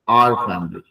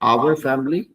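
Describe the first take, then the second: First: 'Our' is shortened to sound like 'are'. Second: 'Our' is said fully, like 'hour'. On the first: It keeps the word distinct and sounds more polished. The speaker calls it right. "थोड़ा shortcut में बोलते हैं उसको, आर" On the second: It can be confused with the word for sixty minutes. The speaker calls it wrong. "आवर जो है वो घंटे वाला आवर हो जाता है"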